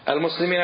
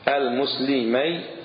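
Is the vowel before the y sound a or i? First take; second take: i; a. First: The vowel before the y sound is i. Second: The vowel before the y sound is a. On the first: It refers to more than two people. "العكس" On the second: It refers to two people. "المثنى مفتوح ما قبل الياء مكسور ما بعد الياء"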